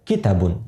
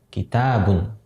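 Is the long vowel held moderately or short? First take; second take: short; moderate. First: The long vowel is cut too short. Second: The long vowel is held for a moderate length. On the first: The speaker calls it wrong. "jadi pendek" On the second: The speaker calls it right. "dia baca panjang seukuran kurang lebih dua harakat"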